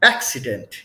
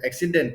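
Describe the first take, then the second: First: It is said in a standard accent. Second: It is said in a South Indian accent. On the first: The speaker calls it right. "Real tone क्या है" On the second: The speaker calls it wrong. "ऐसा को बोलता है south में"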